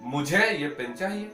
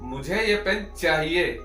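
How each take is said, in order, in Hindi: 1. Stress शब्द 'मुझे' पर है। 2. स्ट्रेस शब्द 'चाहिए' पर है। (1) "किसी ने पूछा कि भाई किसे ये पेन चाहिए" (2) "चाहिए पे देना हो"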